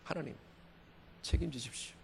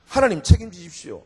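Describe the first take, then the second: First: Very soft, surrendering prayer; hushed plea to God. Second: Firm, spoken-out prayer; firm plea to God. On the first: Preacher repeats his cliff-edge plea to God, hushed. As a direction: drop to a near-whisper to God. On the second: Preacher acts out a cliff-edge plea to God, firmly. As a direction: plead with God to take charge. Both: Acted.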